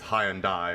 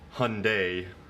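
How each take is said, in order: First: It is pronounced the British way. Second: It is pronounced the American way. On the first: "over there" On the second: "Hyundai over here"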